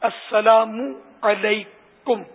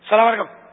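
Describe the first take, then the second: First: Every sound is articulated fully, including the ain. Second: The greeting is clipped and mumbled together. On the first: The speaker calls it right. "میم پر پیش بھی پڑھنا ہے. السلام علیکم عین بھی نکالنا ہے" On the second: The speaker calls it wrong. "یہ سلام تو نہیں ہے, اب گن کچھ من من کر رہا ہے"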